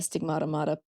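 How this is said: The final R is dropped, so the words rhyme. "practically rhymes in my accent"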